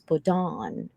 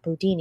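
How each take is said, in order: First: The last syllable sounds like 'don'. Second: The last syllable sounds like 'dine'. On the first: The speaker calls it right. "it's Bodon" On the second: The speaker calls it wrong. "it's not Bodine"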